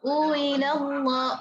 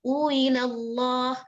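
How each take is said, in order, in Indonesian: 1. Dimulai dengan bunyi w yang diucapkan dengan jelas. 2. Dimulai dengan hamzah yang dilunakkan, seperti vokal yang meluncur. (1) "Kalau uwila itu jelas wawunya" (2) "Tetap i tapi agak diayun"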